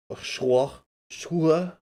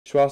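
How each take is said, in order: First: Schwa said the French way, as /ʃuə/; mock French accent. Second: Said in the usual way. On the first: Shown as a demonstration. Streamer showing chat how Schwa sounds French, mock French accent. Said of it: "Schwa sounds a little French when you pronounce it a certain way". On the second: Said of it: "sounds a little French when you pronounce it a certain way".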